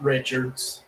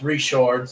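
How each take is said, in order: First: The name is pronounced the usual English way. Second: The name is pronounced in a non-English way. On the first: The speaker calls it wrong. "not Richards. For all of you who only speak English" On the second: The speaker calls it right. "that's Richards"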